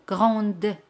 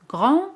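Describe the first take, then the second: First: "grande" with an audible D at the end; French feminine "grande", D sounded; pronounced final D. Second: "Grand" high and rising, no D; French masculine "Grand", D left silent; silent final D. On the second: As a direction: end French "Grand" on the nasal vowel. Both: Shown as a demonstration. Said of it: "se pronuncia D al añadir la letra".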